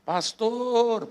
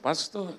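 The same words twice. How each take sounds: First: "Pastor" drawn out on a high pitch; panggilan panjang. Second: "Pastor" called higher, less drawn out; panggilan panjang. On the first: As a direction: stretch the last syllable of "Pastor", high then falling. ("Pastor" dipanjangkan dengan nada tinggi) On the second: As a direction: repeat "Pastor" as a shorter raised call. ("Pastor" dipanggil dengan nada naik) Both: Retold or imitated. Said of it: "panjang gitu".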